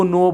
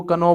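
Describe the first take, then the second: First: नो said with the K silent. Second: कनो with the K pronounced before the N; sounded K. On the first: Teacher showing a silent letter, नो with no K sound. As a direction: say नो starting straight on the N sound. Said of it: "कहाँ silent होता है". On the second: Teacher showing the misreading, कनो with an audible K. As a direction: voice the K as its own syllable in कनो. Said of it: "but इसको क्या कनो". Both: Shown as a demonstration.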